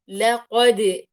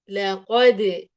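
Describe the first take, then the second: First: The final d bounce leans toward an i vowel. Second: The same.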